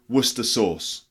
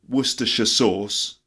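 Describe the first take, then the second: First: The place name is said with the ending dropped. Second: The place name is said with all its syllables. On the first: "some people say Worcester sauce" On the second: "You can do the full way"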